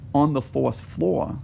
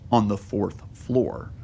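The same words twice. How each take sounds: First: It is said casually, without special care. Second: It is said carefully and emphatically.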